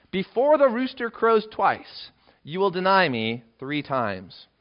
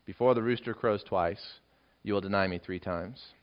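First: Slow, high, weighty warning; solemn prophecy. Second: Soft, low recollection; quiet remembered words. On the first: Acted. Jesus telling Peter he will deny him, slow and solemn. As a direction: lay the prophecy down slowly. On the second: Retold or imitated. Peter remembering what Jesus said, quiet and low. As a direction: recall it softly, sinking in.

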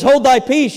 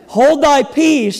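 First: Said in the usual way. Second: Slow, higher scripture command; slow and raised, a measured rebuke; emphatic reading. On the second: Acted. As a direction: draw it out with weight. Rereads it as the better wording.

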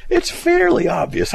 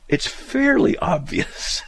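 First: Much higher and louder sarcastic cry; mock outrage. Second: Slow, breathy sarcastic drawl; mock repetition. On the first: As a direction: throw the phrase back, incredulous. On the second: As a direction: drag it out, mocking the phrase. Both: Mocking the letter writer's phrase.

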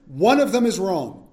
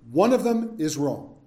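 First: Slow, firm stress on "One of them is wrong"; "wrong" landed hard and final; emphatic. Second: Said in the usual way. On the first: Shown as a demonstration.

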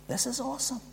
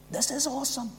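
First: Higher and much softer, reverent; hushed awe. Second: Much softer, higher, falling at the end; hushed awe. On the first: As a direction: breathe it out in wonder. Hushed awe after plain 'good'. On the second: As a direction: settle it down in quiet reverence. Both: Real, not acted.

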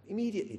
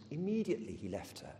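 First: Immediately repeated much higher and louder, with a fall; emphatic repeat. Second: Said in the usual way. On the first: Shown as a demonstration. Preacher hammering home how quick the obedience was, emphatic. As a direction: punch the word Immediately on its own.

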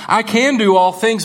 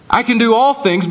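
First: "can" weighted instead of "all"; stress on can. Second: "all" lifted high as the common misreading; stress on all things. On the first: Preacher shows the true emphasis, stress on "can". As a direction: press on "can", let "all things" pass. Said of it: "The emphasis is on through Christ". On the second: Preacher shows the misquoted verse, stress on "all". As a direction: lean on "all things" like the locker-room version. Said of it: "the emphasis isn't on the all things". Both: Shown as a demonstration.

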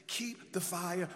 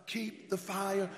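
First: Said in the usual way. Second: Louder call. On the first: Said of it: "Come on, say it louder". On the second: Shown as a demonstration. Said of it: "Say it louder".

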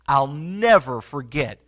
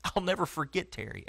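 First: Slow, firm stress on "never", full voice; a deliberate, weighted "never"; emphatic vow. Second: A hushed, heartfelt "never"; hushed remembrance. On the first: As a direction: say "I'll never forget" slowly and plant "never". Preacher repeating his vow for emphasis. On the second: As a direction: say "I'll never forget Terry" quietly, like a memory that still moves you. Preacher recalling a beloved mentor. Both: Real, not acted.

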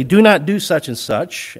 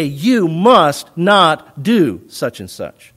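First: Said in the usual way. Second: Slow, with weight on "must not"; "must not" stressed and drawn out; emphatic prohibition. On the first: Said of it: "You could just say plainly". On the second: Shown as a demonstration. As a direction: hit "must" and "not" separately, word by word. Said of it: "put some emphasis on it".

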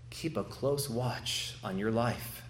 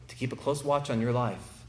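First: Quieter and slow, each word weighed; a hushed slow warning; soft, slow emphasis. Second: Said in the usual way. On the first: Acted. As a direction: lean in and say it gently, slowly.

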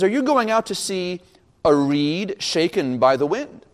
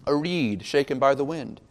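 First: Rising tune up to "wind"; rhetorical question. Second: Said in the usual way. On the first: Retold or imitated. Preacher quoting Jesus questioning the crowd, rhetorical question. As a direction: pose it as a question, slowing on "a reed shaken by the wind". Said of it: "these early rhetorical questions".

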